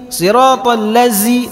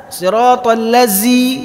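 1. Konsonan dalam ladzi terdengar seperti z. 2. Konsonan dalam ladzi terdengar seperti z.

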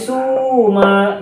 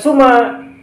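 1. Vokal pertama panjang. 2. Vokal pertama pendek. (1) "tetapi suma. Sunya panjang karena ada wawu mati" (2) "bukan suma"

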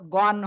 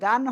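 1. ভোকালটি গোলাকার 'o' ধ্বনি। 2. ভোকালটি খোলা 'a' ধ্বনি। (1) "গন হবে" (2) "গান হবে না"

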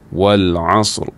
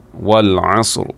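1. Kata ini berakhir dengan bunyi R yang terdengar jelas. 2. Kata ini berakhir dengan bunyi R yang terdengar jelas.

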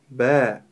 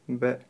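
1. Звук заканчивается, когда рот открыт. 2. Звук заканчивается, когда губы остаются сомкнутыми. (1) "нужно открыть рот" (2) "Если губы будут сомкнуты, и мы не откроем рот"

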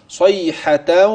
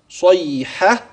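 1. الكلمة تتصل مباشرة بالكلمة التالية. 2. تنتهي الكلمة بوقف قبل السكتة. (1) "إذا وصلت سيصبح هكذا" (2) "إذا وقفت"

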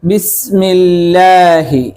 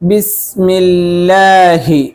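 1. അവസാനത്തെ 'hi' വ്യക്തമായും പൂർണ്ണമായും ഉച്ചരിക്കുന്നു. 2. അവസാനത്തെ 'hi' വ്യക്തമായും പൂർണ്ണമായും ഉച്ചരിക്കുന്നു.

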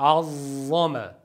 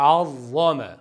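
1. Z sesi çok uzun tutuluyor. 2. Z sesi yalnızca kısa tutuluyor. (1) "u zo ko'payib ketdi" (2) "Azzama bo'ladi"

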